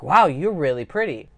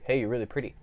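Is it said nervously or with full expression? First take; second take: full expression; nervously. First: It is said with full, open expression. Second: It is said nervously and flatly.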